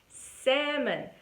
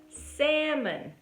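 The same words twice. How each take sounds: Both takes have the same delivery.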